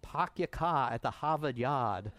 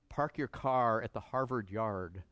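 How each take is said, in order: First: The R sounds are dropped after the vowels. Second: The R sounds are pronounced after the vowels.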